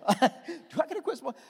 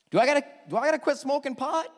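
First: Higher, laughing through the words; laughing retelling. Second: Put-on higher, faster eager young voice; young man's eager question. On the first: Retold or imitated. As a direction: repeat the question through a laugh. Retelling the question while laughing. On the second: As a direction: fire it off like an eager kid quizzing the pastor. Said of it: "the young man says to the pastor".

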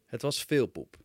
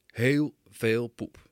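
First: Said in the usual way. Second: Heel veel poep drawn out very slowly and louder; stress on Heel. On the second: Shown as a demonstration. Father stressing how much poop, Heel veel poep said slow and loud. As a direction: stretch every word of Heel veel poep, leaning hard on Heel.

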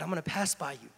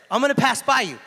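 First: Hushed God voice. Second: Higher and louder, proclaimed; booming God voice. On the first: Preacher voicing God telling Elijah he will pass by, hushed. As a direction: say it quietly, almost to yourself. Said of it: "the Lord said, God said". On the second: Preacher retrying God's line to Elijah, loud and proclaiming. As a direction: announce it like the Lord arriving in power. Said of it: "The Lord said". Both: Acted.

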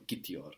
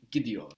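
First: Gitiyor with the T left unsoftened; hard T in gitiyor. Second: Gidiyor with the T softened to D; soft D in gidiyor. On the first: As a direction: say gitiyor with a T, not D. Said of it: "instead of gitiyor". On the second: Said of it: "that vowel softens the T". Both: Shown as a demonstration.

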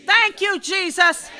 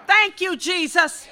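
First: Higher, louder shout of thanks; shouted praise. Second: Said in the usual way. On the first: Real, not acted. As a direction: cry out the thanks to Jesus.

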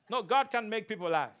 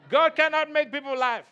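First: Said in the usual way. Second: Louder, higher mock of the critics; loud mocking echo of the critics; mock critic shout. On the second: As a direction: throw the critics' claim out loud and high.

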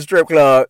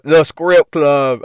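First: Said in the usual way. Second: "script club" drawn out slowly, with an added k sound; joking mispronunciation. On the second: Shown as a demonstration. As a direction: stretch "script club" as a playful twist on strip club.

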